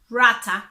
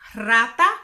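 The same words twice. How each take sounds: First: The r at the start is not rolled. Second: The r at the start is rolled. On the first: "If you get the word like this, rata, don't worry, you have a different accent" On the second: "You have to try to roll your tongue fast and make this sound"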